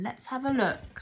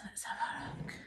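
First: Said in the usual way. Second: Secret little whisper. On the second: Acted. Hushed reveal to toddler.

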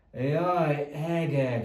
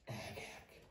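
First: Loud exasperated groan; hangos, lemondó sóhaj; exasperated sigh. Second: Breathy whispered dismay; whispered sigh. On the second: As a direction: whisper it to yourself in despair. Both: Acted. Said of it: "sóhajtotta doktor Reaper".

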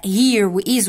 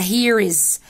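First: "here" and "is" kept apart as two full words; two separate words. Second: "here is" joined into one word, "here's"; run together. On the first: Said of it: "وفي ما بينهم space". ("here" و "is" كلمتين منفصلين) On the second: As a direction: glue "here is" together without a gap. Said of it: "هلزقهم في بعض ويبقوا كلمة واحدة". ("here is" ملزوقين كلمة واحدة) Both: Shown as a demonstration.

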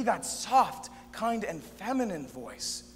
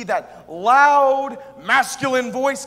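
First: Slow, easing into gentleness; soft, kind, feminine. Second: Very loud proclamation, LOUD drawn out; loud, masculine. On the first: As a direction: ease off slowly into a kind voice. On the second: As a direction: boom it out, stretching the word loud. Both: Shown as a demonstration.

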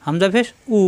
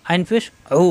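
First: "উ" clean, without throat pressure; unpressed hamza. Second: "উ" squeezed in mid-throat; pressed ayn. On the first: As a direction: say the final "উ" with an open throat. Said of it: "কোনো চাপ নাই". ("উ" চাপ ছাড়া) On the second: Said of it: "কণ্ঠনালীতে চাপ". ("উ" কণ্ঠনালীতে চাপ দিয়ে) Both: Shown as a demonstration.

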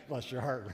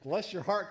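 First: A knowing Southern put-down; southern bless your heart. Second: Said in the usual way. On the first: Shown as a demonstration. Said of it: "bless your heart can go a long way". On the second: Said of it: "my favorite was this".

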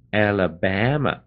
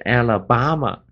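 First: "Alabama" with flat-A "BAM" as in cat; correct vowel demo. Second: "Alabama" with an open "ah" in BAH-ma; wrong vowel demo. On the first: Teacher modelling the name for students, "Alabama" with stressed BAM. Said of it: "这么念的". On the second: Teacher warning students of a mistake, "Alabama" said with BAH. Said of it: "啊，不对". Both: Shown as a demonstration.

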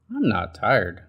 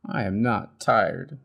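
First: Stubborn Bird. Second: Cried. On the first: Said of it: "said Bird". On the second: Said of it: "he cried". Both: Acted.

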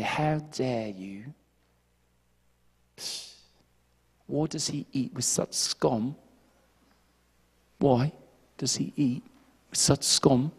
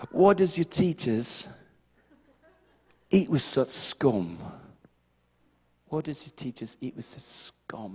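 First: Slow, soft, haughty mock British voice; snooty British. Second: Slow, soft mock British sneer; British accent. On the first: Pharisees looking down on sinners, in a snooty British accent. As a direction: noses up, sniff it out in British. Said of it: "they put their noses up". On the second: Pharisees sneering at Jesus in a mock British accent. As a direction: drawl it like a snooty British Pharisee. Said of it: "speak in a British accent".

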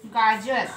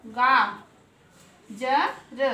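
First: Said in the usual way. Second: गा, ज, र as separate slow sounds with pauses; sounded out. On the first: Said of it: "हम तीनों को क्या पढ़ेंगे". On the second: Shown as a demonstration. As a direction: stretch गा, then give ज and र one at a time. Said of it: "मात्रा लगता है तो उसका". (गा, ज, र अलग-अलग, रुक-रुक कर)

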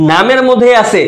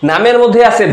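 Both takes have the same delivery.

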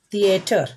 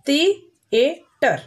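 First: Said in the usual way. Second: "The-a-ter" in three separate beats; "The-a-ter" with a gap after each syllable. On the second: Shown as a demonstration. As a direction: break "The-a-ter" apart for a class. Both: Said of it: "Means here three syllable words".

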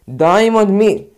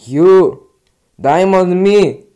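First: Slow, loud call; calling out again. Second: Slow, loud call of the name. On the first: Gamer yelling the player's name again. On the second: Gamer yelling at another player. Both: Real, not acted.

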